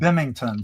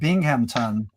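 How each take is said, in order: First: The middle is said as 'ming'. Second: The middle is said as 'ngham'. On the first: This is how local people say it. "a lot of the folks around here call it Bimington" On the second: This is the standard name. "a place in New York called Binghamton"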